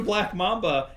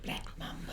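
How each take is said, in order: First: Said in the usual way. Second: Whispered prank name, very soft; sneaky whisper. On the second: Retold or imitated. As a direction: whisper it like a secret signal. Sneaking prank on sleeping friend.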